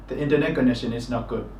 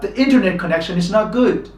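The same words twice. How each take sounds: First: All syllables are given roughly equal stress. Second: Some syllables are clearly stressed, others weaker. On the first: "in Myanmar we tend to say" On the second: "when they speak or uh, put these words in sentences like"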